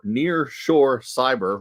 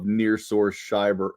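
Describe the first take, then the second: First: "Nearshore Cyber" spoken slowly, each syllable clear; slow careful pronunciation. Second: Said in the usual way. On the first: Real, not acted. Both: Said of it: "another tongue twister".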